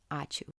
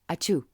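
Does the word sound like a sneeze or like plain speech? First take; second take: plain speech; sneeze. First: It is said as plain, clear speech. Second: It is said like a sneeze. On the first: The speaker calls it right. "The right way to say it" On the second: The speaker calls it wrong. "Lithuanians don't sneeze out a gratitude"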